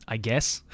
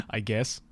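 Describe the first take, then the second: No difference in how they are said.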